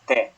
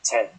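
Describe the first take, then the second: First: The t is not the English t sound. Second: The t sounds like the English t. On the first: The speaker calls it right. "It's te" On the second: The speaker calls it wrong. "not te. ... Not a te"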